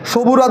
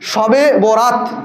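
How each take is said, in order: First: The name is merged into one short word. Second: The name is said as two full words. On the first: The speaker calls it wrong. "আমরা নামটাও সঠিক বলি না, সবুরাত বলি" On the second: The speaker calls it right. "সবুরাত না, শবে বরাত"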